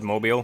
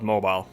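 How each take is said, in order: First: It is said with an Alabama accent. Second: It is said without that Alabama accent. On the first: The speaker calls it right. "that's how you pronounce it, Mobile, because it's in Alabama, so it's got that accent to it" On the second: The speaker calls it wrong. "And not mobile"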